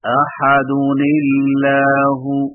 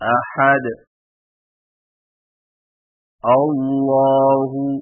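First: The words are joined without a stop. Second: There is a stop after the first word. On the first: "وصلاً" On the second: "وقفاً"

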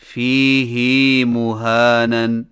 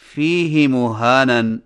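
First: The vowel after the h is drawn out long. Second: The vowel after the h is kept short. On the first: The speaker calls it right. "فیہ کی ہا کو کچھ کھینچ کر پڑھیں، یعنی اس طرح" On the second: The speaker calls it wrong. "فیہ ہدن کی طرح فیہ مہانن پڑھنا صحیح نہیں"

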